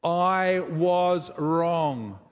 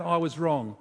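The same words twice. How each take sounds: First: "I was wrong" stretched out very slowly, each word weighed; slow practice admission. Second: Said in the usual way. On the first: Shown as a demonstration. Pastor practising an admission with the congregation, very slow. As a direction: say it like it costs you something. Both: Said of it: "What about".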